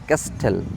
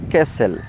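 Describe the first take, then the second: First: A t sound follows the s. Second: No t sound follows the s. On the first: The speaker calls it wrong. "ক্যাস্টেল বলে অনেকে" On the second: The speaker calls it right. "But এটাকে বলতে হবে ক্যাসেল"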